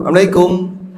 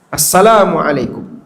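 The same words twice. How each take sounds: First: It is said quickly and rushed, slurring the words. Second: It is said slowly, with every syllable clearly articulated. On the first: The speaker calls it wrong. "Orang mengucapkan salam keburu-buru" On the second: The speaker calls it right. "dibuat jelas terdengar assalamualaikum. Assalamnya jelas"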